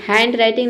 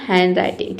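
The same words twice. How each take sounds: First: हैंडराइटिंग with a clear D, "hand-writing"; D sounded. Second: हैंडराइटिंग with no D, "han-writing"; silent D. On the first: Teacher shows what it is not, हैंडराइटिंग with sounded D. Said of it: "नहीं होता है". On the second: Teacher corrects the reading, हैंडराइटिंग with silent D. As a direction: drop the D in हैंडराइटिंग. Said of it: "ड नहीं आएगा". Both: Shown as a demonstration.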